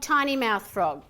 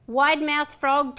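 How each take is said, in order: First: Pinch "tiny" small; tiny mouth. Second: "Wide mouth frog" slow and loud, stretched wide. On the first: Coach contrasting with the tiny-mouth exercise, small and tight. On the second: Coach naming the wide-mouth exercise, slow and stretched. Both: Shown as a demonstration.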